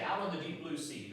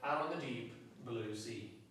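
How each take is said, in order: First: It is read quickly without a pause. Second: It is read with a pause between words.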